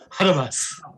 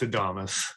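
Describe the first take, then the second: First: The word begins with an H sound. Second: The word begins directly with a vowel sound. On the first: "I'm just gonna say it with an H from now on" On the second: "It's Adamas"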